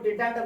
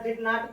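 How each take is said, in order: First: It is said as one contracted word. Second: It is said as two full words.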